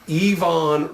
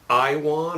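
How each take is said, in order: First: The middle consonant is a V sound. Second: The middle consonant is a W sound. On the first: The speaker calls it right. "the W is pronounced as a V" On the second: The speaker calls it wrong. "Some folks say Iwan"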